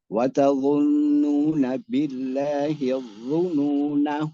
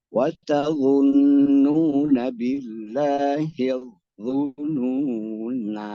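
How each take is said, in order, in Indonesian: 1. Vokal akhirnya pendek, langsung menyambung ke kata berikutnya. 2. Vokal akhirnya dipanjangkan sebelum berhenti. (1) "Kalau wasol nggak boleh dipanjangkan nanya" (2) "harus tetap ada alif"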